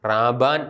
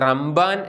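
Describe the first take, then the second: First: A plain b comes with no m sound. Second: An m sound comes before the b. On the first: This is how it is written in Syriac. "സുറിയാനിയിൽ അത് എഴുതുമ്പോൾ റാബാൻ എന്നാണ്" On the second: This is how East Syriac pronounces it. "East സിറിയക്ക് അത് റംബാൻ എന്നാണ് ഉച്ചരിക്കുന്നത്"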